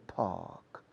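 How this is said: It is said in a British accent. "The British, with Oxford English or Queen's English"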